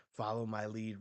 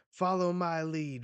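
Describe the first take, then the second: First: Said in the usual way. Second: Rallying command. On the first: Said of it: "this is the thing when he says". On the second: Acted. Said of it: "And Rox says".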